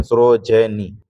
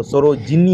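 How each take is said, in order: First: सरोजनी with "ja" or "je" in place of "ji"; lower, spelt-out सरोजनी without the "i" after ज; wrong pronunciation. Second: सरोजिनी with a short "i" after ज; correct pronunciation. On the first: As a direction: draw out सरोजनी as "saro-je-ni". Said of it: "ये गलती है". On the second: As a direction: say सरोजिनी as "saro-ji-ni". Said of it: "सरोजिनी होगा". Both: Shown as a demonstration.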